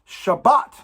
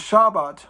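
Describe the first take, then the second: First: The middle B sound is held and emphasized. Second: The middle B sound is short and light. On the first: The speaker calls it right. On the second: The speaker calls it wrong.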